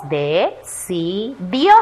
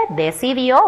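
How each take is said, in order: First: "decidió" slowly split into de, ci, dió; separado en sílabas. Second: Said in the usual way. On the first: Shown as a demonstration. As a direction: sound out "decidió" with gaps between syllables. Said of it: "luego vamos a separar en sílabas". ("decidió" despacio, pausando: de, ci, dió) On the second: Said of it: "Primero vamos a leer".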